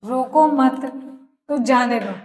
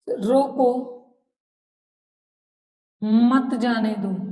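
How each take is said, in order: First: There is a pause right after 'मत'. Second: There is a pause right after 'रोको'.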